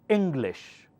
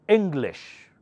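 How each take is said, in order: No difference in how they are said.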